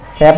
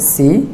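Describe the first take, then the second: First: The vowel is an open 'e' sound. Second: The vowel is a close 'i' sound. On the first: The speaker calls it wrong. "সে পড়লে ভুল হবে" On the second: The speaker calls it right. "এটা জেরকে পড়তে হবে রস্যিকারের মতো"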